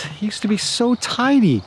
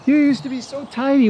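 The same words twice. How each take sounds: First: Said in the usual way. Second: Teasing pet talk. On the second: Real, not acted. Teasing the horse directly.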